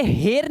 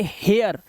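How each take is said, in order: First: हेयर read with a plain ए sound, the wrong way; wrong pronunciation. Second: हेयर with the ए sliding into आ before the r; right pronunciation. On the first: Teacher showing students the wrong reading of हेयर. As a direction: say हेयर as a flat ए vowel. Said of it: "अब इसे हेयर नहीं पढ़ेंगे". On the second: Teacher showing students the correct reading of हेयर. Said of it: "इसे पढ़ेंगे हेयर". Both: Shown as a demonstration.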